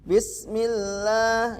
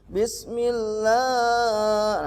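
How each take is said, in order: First: The long 'la' vowel lasts about two beats. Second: The long 'la' vowel is stretched far too long. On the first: The speaker calls it right. "Lahnya cukup satu ayunan saja" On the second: The speaker calls it wrong. "itu terlalu berlebihan"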